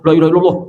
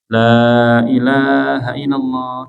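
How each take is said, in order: First: The phrase is said quickly, repeated without pauses. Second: The phrase is said slowly and gently. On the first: The dying person gets confused. The speaker calls it wrong. "Jangan langsung" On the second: The dying person can follow along. The speaker calls it right. "ucapkan la ilaha illallah di telinganya pelan-pelan"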